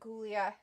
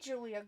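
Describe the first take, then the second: First: The name begins with a hard G sound. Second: The name begins with a J sound. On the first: This is how the name looks when written. "her name is spelled like Gulia" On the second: This is how the name is officially said. "they pronounce it Julia"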